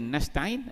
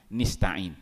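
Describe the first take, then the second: First: The first vowel is an open a sound. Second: The first vowel is a close i sound. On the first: This is the common reading. "ada yang baca nasta'in" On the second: This is a rare, irregular reading. "ada wajah syazah baca dengan nis nista'in"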